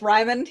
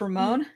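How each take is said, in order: First: The name is said with English pronunciation. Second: The name is said with Japanese pronunciation. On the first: "pronounce it the English way" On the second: "if you're pronouncing it in the like the Japanese way"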